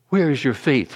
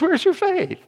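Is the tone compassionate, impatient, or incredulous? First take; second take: compassionate; incredulous. First: It is said in a gentle, compassionate tone. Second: It is said in an incredulous, disbelieving tone. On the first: The asker feels tenderly toward the listeners. "Or was he compassionate?" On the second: The asker can hardly believe the listeners doubt. "Or was he incredulous?"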